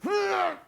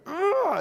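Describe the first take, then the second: First: Put-on angry toddler grunt. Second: Loud, high frustrated grunt; angry toddler grunt. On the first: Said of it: "she went". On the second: Retold or imitated. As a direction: grunt like a furious three-year-old swinging. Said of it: "she's like".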